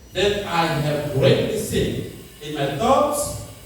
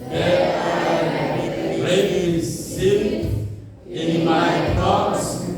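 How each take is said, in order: First: It is said at normal speed. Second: It is said slowly.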